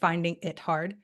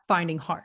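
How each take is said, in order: First: The word 'it' is clearly pronounced. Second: The word 'it' is dropped almost entirely. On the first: The speaker calls it right. "it'd be better to hear a little bit more of the it" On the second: The speaker calls it wrong. "It sounded like you said finding hard"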